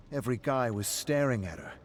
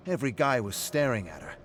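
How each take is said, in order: First: Boastful, a little raised; pleased with yourself, telling it; bragging. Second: Louder and faster, pushing the point; trying too hard to convince; repeating the brag, more forcefully; insistent bragging. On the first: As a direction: show off to your friend. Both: Acted. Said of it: "You said that part a few times now".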